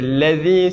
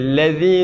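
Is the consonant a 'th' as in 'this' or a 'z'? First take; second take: th; th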